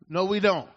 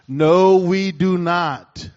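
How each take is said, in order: First: It is said at normal, quieter volume. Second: It is said loudly.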